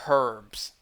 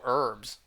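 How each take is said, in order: First: The word starts with an audible h sound. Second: The word starts with a vowel sound, no h.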